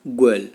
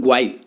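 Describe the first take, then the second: First: गर्ल said the right way, as one clean syllable; correct pronunciation. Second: ग्वाइल with a gw glide and an i sound, the mistake; wrong pronunciation. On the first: Teacher shows students the correct way to say गर्ल, carefully. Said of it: "pronunciation सही बोलना है आपको". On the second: Teacher shows students the common mistake, ग्वाइल mispronounced. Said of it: "not ग्वाइल". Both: Shown as a demonstration.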